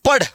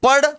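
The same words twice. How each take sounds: First: पढ़ ending on a full dh stop; contrasted hard ढ. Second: पढ़ with a light flapped ending; contrasted flapped ढ़. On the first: Teacher asks if students hear a difference, पढ़ stopped hard. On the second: Teacher asks if students hear a difference, पढ़ flapped. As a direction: end पढ़ on a quick tongue flick. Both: Shown as a demonstration. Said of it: "फर्क है कि नहीं है?".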